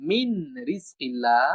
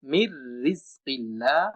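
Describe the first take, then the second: First: মিন রিজকিল্লাহ with a clear separate N sound; wrong pronunciation. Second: মির রিজকিল্লাহ with the nun merged into a doubled R, slow; correct merged R. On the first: Teacher shows the incorrect unmerged nun. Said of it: "অশুদ্ধ উচ্চারণ হবে". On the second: Teacher models the correct slow recitation. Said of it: "র দুইবার উচ্চারণ করতে হবে". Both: Shown as a demonstration.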